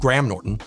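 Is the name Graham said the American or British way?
American. It uses the American pronunciation of Graham. The speaker calls it wrong. "it'd be weird to pronounce his name"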